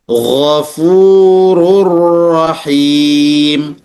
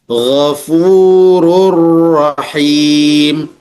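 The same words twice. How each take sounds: No difference in how they are said.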